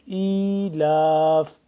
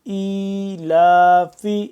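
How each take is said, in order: First: The word ends on a consonant, vowel dropped. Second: The word ends on a final vowel. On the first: The reader stops on this word. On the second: The reading continues without stopping.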